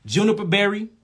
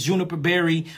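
First: JUNIPER BERRY said slowly and set apart; measured dictation of "Juniper berry"; said slow for note-taking. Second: Said in the usual way. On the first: Shown as a demonstration. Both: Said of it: "Let me say it slow".

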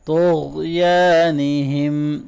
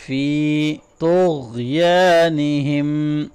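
First: طغیانہم with a thick ta and ghain and the alif held; heavy ta and ghain. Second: طغیانہم with a thick ta and ghain and a long alif; heavy ta and ghain. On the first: Teacher repeating after explaining heavy letters. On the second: Teacher demonstrating heavy letters to students. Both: Shown as a demonstration. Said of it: "طا اور غین دونوں موٹے".

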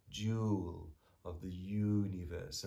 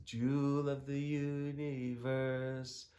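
First: "jewel" and "universe" slowly echoing on a long oo; matched vowels stressed. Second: Chanted "universe", high and drawn out; slow half-sung line landing on "universe"; stress on universe. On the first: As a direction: draw out "jewel" and the first syllable of "universe". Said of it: "a kind of euphonious aspect to the sound". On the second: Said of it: "it might be natural to emphasize the words". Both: Shown as a demonstration.

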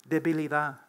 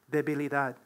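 The two takes are said the same way.

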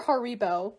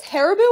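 First: Haribo stressed in the middle, har-EE-bo; second pronunciation of Haribo. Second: Haribo with stress up front, HAIR-ih-bo; first pronunciation of Haribo. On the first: Vlogger trying another candy name reading, Haribo as har-EE-bo. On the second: Vlogger unsure of candy name, Haribo as HAIR-ih-bo. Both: Shown as a demonstration. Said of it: "How do you pronounce that".

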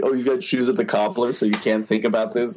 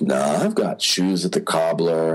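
First: Mock disbelief. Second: Lower, dry excuse; deadpan. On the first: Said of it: "it was funny 'cause". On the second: Retold or imitated. Actor excusing himself from giving any thoughts, deadpan. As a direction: brush the question off with a straight, low delivery. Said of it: "he just says it very deadpan".

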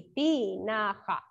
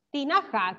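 First: "Tinaja" slowly, drawn out in three syllables. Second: Said in the usual way. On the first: Shown as a demonstration. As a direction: spell out "Tinaja" by sound, ti... na... ja. ("Tinaja" lento, separando las sílabas) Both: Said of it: "Todas las escribieron así".

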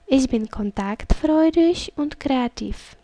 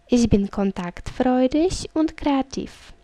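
No difference in how they are said.

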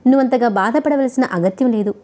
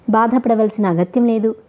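First: Gently coaxing. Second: Sneering repeat of "బాధపడవలసిన అగత్యం లేదు"; mocking echo. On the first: Husband to angry wife, gently coaxing. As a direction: coax her calmly, like easing a hurt. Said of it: "అనునయంగా నచ్చచెప్పపోయాడు". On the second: Wife mocking husband's soothing words, sneering. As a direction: throw his own words back with scorn. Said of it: "హేళనగా అన్నది ఆమె". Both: A narrator's reading.

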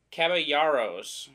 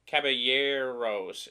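First: Caballeros slowly, with "yar" in the middle; slow try at Caballeros, double L as Y, then "ar"; sounding out a Spanish name. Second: Caballeros slowly, with "yair" in the middle; slow try at Caballeros, double L as Y, then "air"; sounding out a Spanish name. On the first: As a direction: say Caballeros as "cab-a-YAR-ohs", drawn out. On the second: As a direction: say Caballeros as "cab-a-YAIR-ohs", drawn out. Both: Shown as a demonstration. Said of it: "two L's make a Y".

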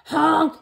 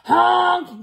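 First: Loud, higher yelled horn; hammed-up frightened truck horn; scared honk. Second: Big yelled truck horn; loud, high, bossy honk; really loud honk. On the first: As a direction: honk out for help as a stuck truck. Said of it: "and he sounded scared". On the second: Acted. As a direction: blast it out like a dump truck. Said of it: "That means it's really loud".

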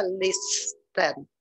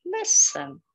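First: "listen" with the t sounded, "lis-ten"; wrong pronunciation. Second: "Listen" as "lissen", t left silent; correct pronunciation. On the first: Teacher demonstrates the wrong "listen" with a t. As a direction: say the t in "listen" on purpose. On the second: Teacher gives the right "Listen" after the wrong one. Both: Shown as a demonstration. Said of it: "Não se fala listen".

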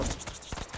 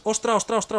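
First: Ostra breathed out as a whisper, no voice; tense whisper while hiding; whispered exclaiming. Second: Ostra blurted high and louder, in alarm; sudden gamer alarm; startled exclaiming. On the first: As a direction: drop to a hushed ostra under your breath. Panicked exclamation trails off. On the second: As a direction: snap out ostra in a fright. Panicked exclamation in game. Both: Real, not acted.

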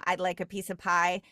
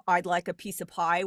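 First: Great Lakes accent. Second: Said in the usual way. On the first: Shown as a demonstration. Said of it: "Great Lakes I sound with". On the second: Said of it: "instead of".

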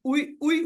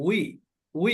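First: উই said as two separate vowels u-i, the way we do not say it; wrong way. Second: উই glided together as one English we; right way. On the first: Teacher demonstrates the wrong way of saying উই. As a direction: split উই into u and i. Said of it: "উই, উই এভাবে বলি না". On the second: Teacher demonstrates the right English-style উই. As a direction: say উই smoothly as we. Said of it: "কিন্তু আমরা কি বলি". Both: Shown as a demonstration.

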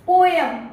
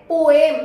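First: "पोएम" said the commonly heard way; common mispronunciation. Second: "पोएम" modelled carefully, louder; correct pronunciation. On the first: English trainer voicing learners' habit, common mispronunciation. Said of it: "यही बोलते आ रहे हैं ना". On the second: Teacher answering her own question, correct pronunciation. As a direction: punch out "पोएम" as the model word. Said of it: "क्या बोलते हैं". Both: Shown as a demonstration.

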